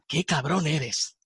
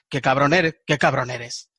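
First: The tone sounds admiring and approving. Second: The tone sounds annoyed and irritated. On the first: The speaker is praising a success or good work. "con esta entonación, es totalmente diferente" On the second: The speaker is insulting the other person.

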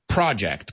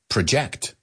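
First: The stress is on the first syllable. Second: The stress is on the second syllable. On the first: It names a plan or piece of work. "I've heard that word pronounced a million times, like project, como un proyecto" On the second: It means to throw your voice or an image outward. "To project your voice to make sure you hit the back of the theater"

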